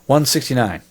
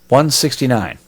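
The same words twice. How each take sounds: First: It is said casually and slurred, farther away. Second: It is said carefully, close to the microphone.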